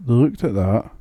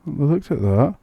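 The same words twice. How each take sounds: First: "at" stressed, the rest even. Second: "looked" stressed, rising tune. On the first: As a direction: lean on "at" instead. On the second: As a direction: punch "looked" with a rise. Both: Shown as a demonstration.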